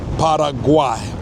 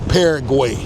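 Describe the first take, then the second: First: It is said differently from the English way. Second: It is said the familiar English way. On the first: "So it's probably" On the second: "in normal, I would say"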